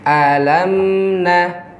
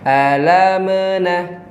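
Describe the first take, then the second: First: The m is held smoothly without a bounce. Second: The m ends with an added bouncing release. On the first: The speaker calls it right. "itu ditawasudkan" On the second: The speaker calls it wrong. "ini tidak dibenarkan karena mim bukan sifatnya qalqalah"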